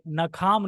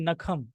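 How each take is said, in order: First: The second vowel is long. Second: The second vowel is short. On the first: The speaker calls it wrong. "नखाम नहीं" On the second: The speaker calls it right.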